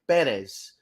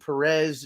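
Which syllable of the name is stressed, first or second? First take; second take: first; second. First: The stress is on the first syllable. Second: The stress is on the second syllable. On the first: The speaker calls it right. "the accent mark is over the first e because the correct pronunciation" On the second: The speaker calls it wrong. "Why everyone insists on saying Perez is is beyond me"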